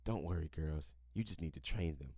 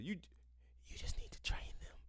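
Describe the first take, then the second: First: Hushed, much lower and softer read of the quote; quoting the friend's hushed tip, softly; read as a whisper. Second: Breathy unvoiced mock whisper; scoffing at the article, whispered. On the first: A narrator's reading. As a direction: drop the voice low for the secret advice. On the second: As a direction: whisper it like a sneaky secret, mocking. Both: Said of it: "leans forward and whispers".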